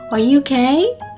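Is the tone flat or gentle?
gentle. It is said in a soft, gentle tone. The speaker calls it right. "부드럽게 말하시는 거"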